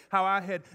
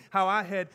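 The two takes are said the same way.

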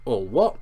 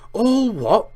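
First: Rising, puzzled little query; puzzled question. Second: Loud, high incredulous roar; thundered. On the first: Harry asking Hagrid what he means, puzzled. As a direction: ask it innocently, lifting at the end. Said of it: "asked Harry". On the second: Hagrid thundering back at clueless Harry, outraged shout. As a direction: explode in outraged disbelief. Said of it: "Hagrid thundered". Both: A narrator's reading.

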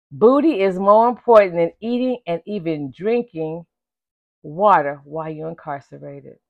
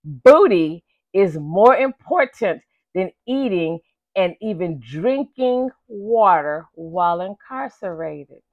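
First: Said in the usual way. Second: Booty stretched out and leaned on, each word slow; slow emphatic restatement for effect; slow, emphatic repeat. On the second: Shown as a demonstration. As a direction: let it sink in, word by word. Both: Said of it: "Let me say that, that last one again".

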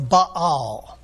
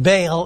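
First: "Baal" split into two syllables, "bah-AHL"; Hebrew pronunciation. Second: "Baal" as one run-together word, like "bale"; English pronunciation. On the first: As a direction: say "Baal" slowly as "Ba-al", with open ah vowels. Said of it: "they split it up into two syllables". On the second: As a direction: say "Baal" the English way, rhyming with "pale". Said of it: "Usually we pronounce it Baal in English". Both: Shown as a demonstration.

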